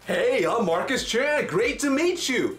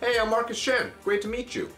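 First: The greeting is loud and overly energetic. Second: The greeting is calm and measured. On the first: The speaker seems to be pushing themselves on the listener. The speaker calls it wrong. "You'd be like, WTF, back up" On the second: The speaker seems relaxed and not pushy. The speaker calls it right. "Same words, very different feeling"

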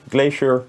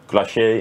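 First: The word is pronounced the English way. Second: The word is pronounced the French way. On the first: The speaker calls it wrong. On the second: The speaker calls it right.

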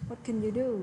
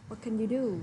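No difference in how they are said.

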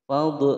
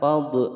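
Both takes have the same delivery.

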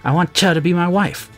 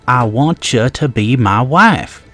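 First: It is mumbled quietly and hesitantly. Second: It is said loudly and clearly.

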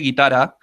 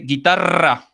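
First: The double R is said weakly. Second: The double R is said strongly. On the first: The speaker calls it wrong. "you say guitarra" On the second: The speaker calls it right. "but you have to say guitarra"

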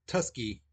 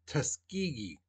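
First: The word is said with two syllables. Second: The word is said with three syllables. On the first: The speaker calls it wrong. "It's not Tusky" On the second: The speaker calls it right. "the way you pronounce that word, that it's Tuskegee"

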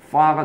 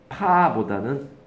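First: The syllable begins with an f sound. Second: The syllable begins with a p sound. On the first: The speaker calls it right. "파가 더 정확한 발음이죠" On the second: The speaker calls it wrong.

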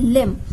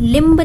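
First: The word ends on m with no b. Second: The word ends with an audible b sound. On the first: The speaker calls it right. "जो बी है वो silent है" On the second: The speaker calls it wrong. "लिम्ब नहीं बोलेंगे"

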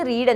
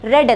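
First: The vowel is long, like in 'reed'. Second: The vowel is short, like in 'red'. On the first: The reading happens now or habitually. "റീഡ് എന്ന് പറഞ്ഞാൽ നമ്മൾ എന്തെങ്കിലും കാര്യം വായിക്കുന്നതിന് റീഡ് എന്ന് പറയും" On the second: The reading happened in the past. "പാസ്റ്റ് ടെൻസിൽ പറയുമ്പോൾ റെഡ് എന്നാണ് പറയുക"

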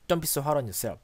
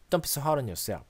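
Both takes have the same delivery.

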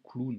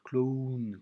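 First: Said quickly, the O sound is absorbed. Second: Said slowly, the O sound is pronounced separately. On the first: The speaker calls it right. "quand on va le dire vite, ça va faire vraiment clown" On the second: The speaker calls it wrong. "On va pas dire clown"

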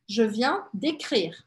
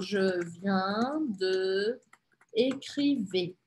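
First: De is merged into the following word. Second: De is said as a separate full syllable. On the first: The speaker calls it right. "tem E e E, então é décrire. Assim" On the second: The speaker calls it wrong. "Você falou"

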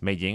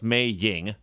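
First: The name is blurred into one syllable. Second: The name is said with two clear syllables. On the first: It sounds like Meng. "if you say it fast, it's Mei Ying. It sounds like Meng" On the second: This is the correct name. "I know it's Mei Ying"

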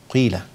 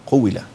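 First: Lips round briefly before the first consonant. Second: A full strong 'oo' vowel follows the first consonant. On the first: The speaker calls it right. "لكن الصح الإشمام هنا قبل الحرف" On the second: The speaker calls it wrong. "لأن أنت كده ضميت القاف وزودت واو قوي"

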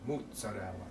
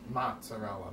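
First: It is said with a southern Italian pronunciation. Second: It is said with an American English pronunciation. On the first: "but we say mozzarella" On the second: "a lot of the American people say mozzarella"

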